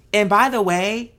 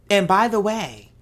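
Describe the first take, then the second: No difference in how they are said.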